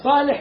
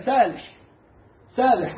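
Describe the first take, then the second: First: Said in the usual way. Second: سالح with a thin, light S instead of emphatic Ṣ; صاد تنطق سين. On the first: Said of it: "بدل ما يقول لك فلان ده". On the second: Retold or imitated. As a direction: say سالح softening the ص into plain س. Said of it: "يقول لك لا". (صاد مرققة تنطق سين)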